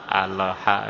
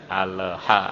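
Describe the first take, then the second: No difference in how they are said.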